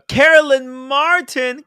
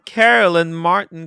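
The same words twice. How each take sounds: First: Much higher, louder and slow, announcing Carolyn Martin; host hyping a viewer's name; calling out a name. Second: Louder, slow second call of Carolyn Martin, less high; host repeating the name for chat; repeated callout. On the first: Reading out a super chat name. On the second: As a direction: say Carolyn Martin again to the crowd. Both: Real, not acted.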